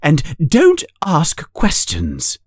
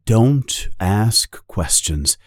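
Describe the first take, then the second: First: Higher, curt aunt voice; stern aunt. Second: Slow, deliberate restating; slow repeated rule. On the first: Aunt cutting off Harry's questions, curt. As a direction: shut the question down. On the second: Narrator repeating the aunt's rule, slowly. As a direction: let the rule sink in slowly. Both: A narrator's reading.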